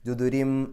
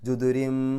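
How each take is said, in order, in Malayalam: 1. ഈ വാക്ക് m ശബ്ദത്തിലാണ് അവസാനിക്കുന്നത്. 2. ഈ വാക്ക് m ശബ്ദത്തിലാണ് അവസാനിക്കുന്നത്.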